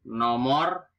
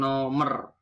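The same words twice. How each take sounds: First: "Nomor" with o in both syllables; standard pronunciation. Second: "nomer" with a schwa at the end; nonstandard pronunciation. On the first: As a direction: say no-mor for "Nomor". (ucapkan "Nomor" dengan o) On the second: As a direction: say no-mer slowly for "nomer". (ucapkan "nomer" dengan e) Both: Shown as a demonstration. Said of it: "bukan nomer".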